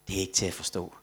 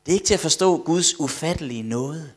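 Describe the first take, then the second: First: Low, soft, understated quote; retold tearful awe. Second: Higher, emphatic exclamation; preacher's amazement. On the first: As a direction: quote the weeping man quietly, without crying. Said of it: "så sad han og græd og sagde". (dæmpet genfortalt bevægelse) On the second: Real, not acted. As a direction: proclaim it to the congregation with raised voice. Prædikanten gentager citatet som udråb. (løftet, begejstret forkyndelse)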